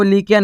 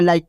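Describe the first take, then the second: First: लिख के as "li-kya", short i; letter-by-letter misreading. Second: Like with an eye vowel; correct reading. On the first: Teacher showing what not to read, लिख के as "li-kya". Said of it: "लिख के नहीं पढ़ना". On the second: Teacher giving the right reading, Like as "laik". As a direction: say Like as one beat, "laik". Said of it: "आपको क्या पढ़ना है?". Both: Shown as a demonstration.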